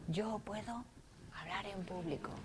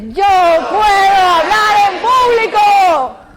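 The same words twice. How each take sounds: First: It is whispered very quietly. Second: It is shouted very loudly.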